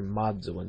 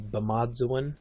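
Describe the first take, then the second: First: The word starts with an m sound. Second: The word starts with a b sound. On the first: This is the southern way of saying it. "so they drop that initial B" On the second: This is the northern way of saying it. "is how they would say life in the north"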